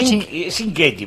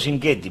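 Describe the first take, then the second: First: It is pronounced with Italian sounds. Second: It is pronounced with Argentine Spanish sounds.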